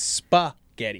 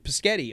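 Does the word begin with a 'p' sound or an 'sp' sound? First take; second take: sp sound; p sound. First: The word starts with an sp sound. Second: The word starts with a plain p sound. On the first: This is how the word should be said. The speaker calls it right. "I'm like, it's" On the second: A young child mispronounced the word. The speaker calls it wrong. "My kids had a hard time with spaghetti"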